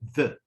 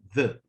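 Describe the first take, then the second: First: The word is said with a reduced vowel. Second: The same.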